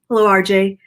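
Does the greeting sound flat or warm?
flat. It is said flatly, with a straight face.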